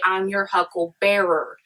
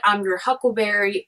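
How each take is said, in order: First: "hucklebearer" ending in bearer, not berry; "hucklebearer", last part like pallbearer; alternative word ending. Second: Said in the usual way. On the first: Shown as a demonstration. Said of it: "misinterpreted to say". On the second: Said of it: "So he either said".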